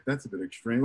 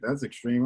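First: Soft, low-voiced remark under the breath; wife murmuring it quietly; breathy aside. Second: Low soft murmur; muttered quietly as an aside; under the breath. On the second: Retold or imitated. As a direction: barely voice it on an out-breath. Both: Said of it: "she said on the breath".

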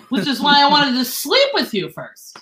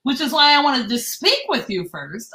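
First: Sleep said with a falling stress. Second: Said in the usual way. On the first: Shown as a demonstration. Telling friends the voice text typo, stress on sleep. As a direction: lean on the word sleep. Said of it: "I said". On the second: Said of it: "instead of".

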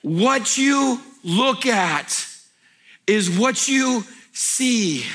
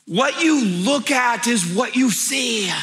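First: Very slow, each word spaced, "you" stressed; very slow repeat. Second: Slow, stressed on "you"; emphatic maxim. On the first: Pastor repeating his maxim for the crowd, very slow. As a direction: spell it out very slowly, stressing "you". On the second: Pastor giving the congregation his key line, slow and emphatic. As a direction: land "you" slowly and firmly. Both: Acted. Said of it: "most profound things I've ever said".

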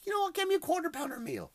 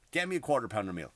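First: Quoting his own phone order, much higher; the order to his wife, pitched up high; quoting himself. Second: Said in the usual way. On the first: Retold or imitated.

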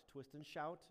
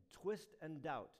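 First: "shout" met sh en stijgende toon; twist and shout. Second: "Twist and doubt" met een duidelijke d in doubt. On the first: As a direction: zeg "shout" met sh, niet d. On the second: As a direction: zeg "doubt" met harde d, niet sh. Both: Shown as a demonstration. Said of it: "sounds very similar".

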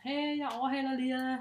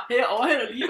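First: Sweet, friendly call-out. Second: Loud retold yell, laughing; shouted warning. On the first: Retold or imitated. Cyclist warning others before passing, sweet and friendly. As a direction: call it out nicely, like a polite heads-up. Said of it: "rigtig sød og sådan". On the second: Cyclist yelling a warning while overtaking, loud and amused. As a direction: shout it out as you ride past. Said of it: "og så råber".

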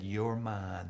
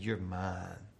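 First: Soft, lowered voice to the kite; quiet, loving murmur; tender hush. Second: Even quieter and lower, full of awe; hushed, wondering murmur; softer tender repeat. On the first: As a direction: say it gently, like holding something precious. Boy whispers to his kite. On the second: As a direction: breathe it out to the kite. Boy repeats to his kite. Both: A narrator's reading.

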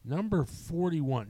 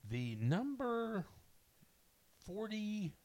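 First: Slightly slow, higher announcer tone; a lighter pass at the number reveal; lighter countdown announce. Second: Slow, high announcer reveal; dramatic countdown reveal. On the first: Re-announcing the movie to her co-host, a lighter announcer tone. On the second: Announcing the next movie in the countdown, slow and dramatic. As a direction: draw out the number like a show host. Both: Acted. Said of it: "countdown host reveals next movie".

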